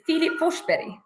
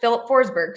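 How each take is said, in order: First: The name is said with a Swedish pronunciation. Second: The name is said with an English pronunciation. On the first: "It's in Swedish, the pronunciation is" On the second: "but in English"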